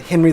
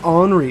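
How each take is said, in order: First: The name is said with English pronunciation. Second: The name is said with French pronunciation.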